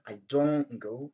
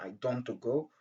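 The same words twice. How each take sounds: First: The t at the end of don't is dropped. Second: The t at the end of don't is pronounced. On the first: The speaker calls it right. "le son T est très, très, très réduit" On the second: The speaker calls it wrong. "ça c'est pas la bonne prononciation"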